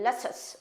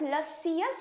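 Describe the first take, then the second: First: It is said short and compact in two syllables. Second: It is stretched into three separate syllables. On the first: "तो इतना खींचना नहीं है" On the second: "लसियस भी बोल सकते हो"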